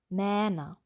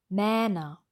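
No difference in how they are said.

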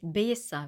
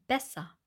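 First: The stressed vowel is a long closed E. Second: The stressed vowel is a short open Ä. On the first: The speaker calls it wrong. "Wir sagen nicht besser" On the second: The speaker calls it right. "wir sagen besser"

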